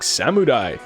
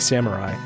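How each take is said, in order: First: The word is said in an exaggerated, over-the-top way. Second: The word is said in a plain, everyday way. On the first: The speaker calls it wrong. "saying it like that would be like maybe a little over the top" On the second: The speaker calls it right. "I'd say Samurai"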